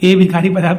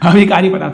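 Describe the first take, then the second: First: The word begins with an 'e' sound. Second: The word begins with an 'a' sound. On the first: The speaker calls it wrong. "ए विकारी पदार्थ नहीं होता मेरे प्यारे बच्चों" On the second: The speaker calls it right. "अविकारी पदार्थ है"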